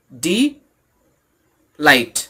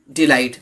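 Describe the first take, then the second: First: "डी light" split in two, long pause between; syllable by syllable. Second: Said in the usual way. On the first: Shown as a demonstration. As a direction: say "डी" rising, pause, then "light" falling. ("डी" और "light" को अलग-अलग, रुककर बोलें) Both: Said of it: "इसमें दो syllable है".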